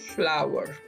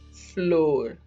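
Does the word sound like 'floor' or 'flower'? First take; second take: flower; floor. First: The word is said like flower, with 'ow'. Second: The word is said as one syllable, like floor. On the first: The speaker calls it right. "the right pronunciation is flower" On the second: The speaker calls it wrong. "Mostly, mostly it's used as floor"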